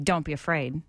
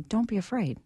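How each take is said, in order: First: It is said in a harsh, condemning tone. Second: It is said in a gentle, comforting tone.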